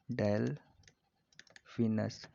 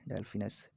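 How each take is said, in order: First: Delphinus broken by a long pause; slow dictation. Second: Said in the usual way. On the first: Shown as a demonstration. Teacher repeats dolphin's name for students, very slowly. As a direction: say Delphinus in slow, separate halves.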